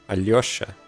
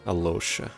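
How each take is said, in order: First: The L is followed by a y glide. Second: The L is plain, with no y glide. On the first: The speaker calls it right. "It's supposed to be Alyosha" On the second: The speaker calls it wrong. "you just lose out on that lyo"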